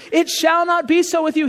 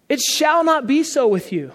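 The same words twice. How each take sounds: First: Higher, pressed repeat of the line; emphatic repeat. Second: Said in the usual way. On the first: Retold or imitated. Preacher repeating Jesus' words to the congregation, emphatic. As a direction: hammer home "It shall not be so with you.".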